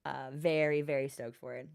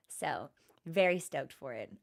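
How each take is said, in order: First: Very soft, almost whispered, and much quieter; hushed repeat. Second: Breathy whispered aside, unvoiced. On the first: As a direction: keep it hushed, fading away. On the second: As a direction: drop to a secret whisper. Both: Real, not acted.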